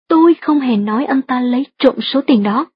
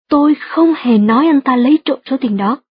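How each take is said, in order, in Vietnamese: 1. Trọng âm rơi vào từ tôi. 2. Trọng âm rơi vào các từ không hề. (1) "nếu nhấn mạnh từ tôi trong câu thứ hai như thế này" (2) "nếu bạn nhấn mạnh từ không hề trong câu"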